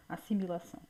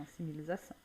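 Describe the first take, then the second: First: Said in the usual way. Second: "assimilação" with an extra syllable, as assimilização; slip of the tongue. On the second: Real, not acted. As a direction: stumble on "assimilação", saying assimilização. Slip, corrected straight afterwards. ("assimilação" com tropeço, dito assimilização)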